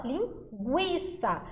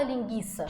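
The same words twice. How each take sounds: First: Linguiça said as ling-gwi-ça with the U sounded; right pronunciation. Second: Linguiça said as ling-gi-ça with the U silent; wrong pronunciation. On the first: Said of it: "A gente fala". (linguiça pronunciada certo, devagar, com o U) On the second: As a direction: say linguiça without the w sound, ling-gi-ça. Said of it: "a gente não fala". (linguiça pronunciada errado, sem o som do U) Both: Shown as a demonstration.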